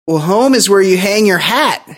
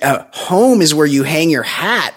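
First: Put-on corny old-timer line. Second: Said in the usual way. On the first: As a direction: ham it up like an old vaudevillian. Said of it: "And he goes". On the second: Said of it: "is he a fucking seventy-year-old ex-vaudevillian".

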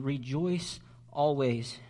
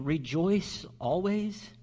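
First: Rejoice always said slowly as a firm statement; "rejoice always" as a calm command. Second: "Rejoice always?" slow and doubtful, rising on "always"; "rejoice always" as a skeptical echo; incredulous question. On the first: Shown as a demonstration. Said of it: "the emphasis is on the word always". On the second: Retold or imitated. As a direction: voice the listener who can't believe "always". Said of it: "you may be thinking".

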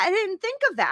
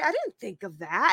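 First: Higher, insistent second take; emphatic repeat. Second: Said in the usual way. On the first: Real, not acted. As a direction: hit DIDN'T higher, stunned by the realization. Repeats the realization twice.

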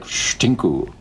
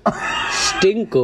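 First: Stinku said as shtinku, sharp sh; Dutch pronunciation. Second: Stinku repeated as shtinku, higher; echoed Dutch word. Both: Retold or imitated. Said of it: "That's what it sounds like".

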